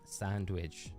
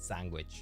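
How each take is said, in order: First: Every sound is said as the word is spelled. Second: The middle sounds are slurred and changed. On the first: The speaker calls it right. "I know it's sand, sandwich, sandwich, how it's spelled" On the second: The speaker calls it wrong. "I always pronounce it sandwich, sandwich, because I always have"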